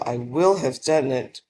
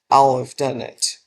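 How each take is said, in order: First: Each word is said separately and in full. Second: The words are joined and shortened together.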